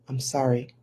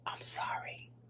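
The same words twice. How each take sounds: First: It is said a little louder. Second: It is said in a soft whisper.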